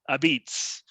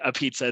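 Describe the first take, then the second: First: It uses an Italian-dialect pronunciation. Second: It uses the standard English pronunciation. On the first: The speaker calls it right. "they say a beats" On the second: The speaker calls it wrong. "they don't say a pizza"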